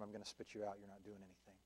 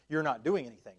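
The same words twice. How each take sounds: First: Dropped to a near hush, much softer, a grave warning. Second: Louder, punched rebuke in full preaching voice; emphatic rebuke. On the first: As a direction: let the words sink almost to a whisper. Christ's warning, voiced very softly. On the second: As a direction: hammer the word doing home. Same rebuke, now preached out. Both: Acted.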